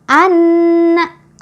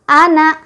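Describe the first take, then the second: First: The n is doubled with a held nasal hum. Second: The n is short with no nasal hum. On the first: The speaker calls it right. "Itu bacaan yang betul" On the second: The speaker calls it wrong. "tasydidnya tidak ada, otomatis tidak ada dengung sama sekali"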